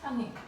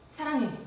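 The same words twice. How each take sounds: First: It is said in a tiny, choked voice. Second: It is said in a loud, full voice. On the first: "정말 목이만 한 소리로" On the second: "큰 목소리로 다시 한번"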